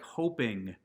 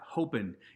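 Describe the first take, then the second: First: The word ends with a full -ing sound. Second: The word ends with a clipped -in sound. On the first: The speaker calls it right. "words like hoping" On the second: The speaker calls it wrong. "not hoping"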